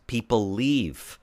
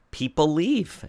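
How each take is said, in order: First: Slow emphatic statement. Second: Higher, rising on "leave" as if pressing the point home; rising repeat. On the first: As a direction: let "People leave." sink slowly, as a final verdict. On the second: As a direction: lift "People leave." up at the end, insisting. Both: Real, not acted. Host repeats point for emphasis.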